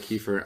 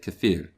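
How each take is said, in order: First: It is said in a plain English accent. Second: It is said in a put-on Russian accent.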